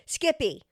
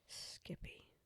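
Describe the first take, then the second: First: The name is said at a much louder volume. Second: The name is said at normal, quieter volume.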